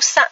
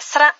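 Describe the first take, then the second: First: The word is said quickly without the r sound. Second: The word is said fully with the r sound. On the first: "Sa c'est pour dire vite" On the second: "la vraie prononciation c'est sra"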